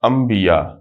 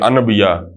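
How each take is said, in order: First: An m sound comes before the b. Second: An n sound comes before the b. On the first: The speaker calls it right. "बल्कि ही पढ़ते हैं अम्बिया" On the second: The speaker calls it wrong. "अनबिया नहीं पढ़ा हमने कभी भी"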